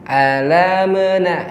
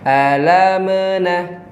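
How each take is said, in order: The two takes are said the same way.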